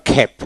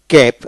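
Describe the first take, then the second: First: খ্যাপ with a puff after the K; aspirated K variant. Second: ক্যাপ with an unaspirated K; plain K variant. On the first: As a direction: say খ্যাপ with a breathy খ onset. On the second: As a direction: say ক্যাপ with a plain ক, little breath. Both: Shown as a demonstration. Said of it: "আবার খ্যাপ".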